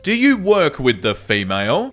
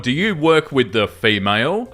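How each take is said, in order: First: Mock neckbeard stress on "female"; sneering weight on "female". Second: Said in the usual way. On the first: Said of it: "put the exact emphasis on the word female". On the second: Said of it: "The next one's called".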